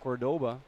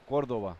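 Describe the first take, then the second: First: It is said with an English pronunciation. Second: It is said with a Spanish pronunciation. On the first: "in English you would read" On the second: "in Spanish you would read"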